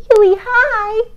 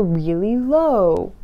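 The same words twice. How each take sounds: First: Much higher, playful; really high voice. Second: Slow, low playful voice; really low voice. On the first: Showing parents a silly very high voice. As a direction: squeak it up high. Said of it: "using your voice really high". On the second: Showing parents a silly low voice. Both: Shown as a demonstration.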